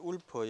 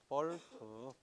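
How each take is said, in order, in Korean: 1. 이 이름은 W 소리로 시작해요. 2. 이 이름은 V 소리로 시작해요. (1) "울프가 아니고 볼프야" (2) "W는 V, 독일 말로는"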